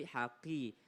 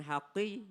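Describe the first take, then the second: First: HAQI with an unforced qaf; softer HAQI, qaf not overdone; moderate qaf. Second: HAQI with too heavy a qaf; exaggerated throaty q in HAQI; overdone qaf. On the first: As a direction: ease off the Q in HAQI. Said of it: "nggak terlalu qi juga". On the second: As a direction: overthicken the Q of HAQI, as a mistake. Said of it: "nggak terlalu qi juga. Jangan". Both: Shown as a demonstration.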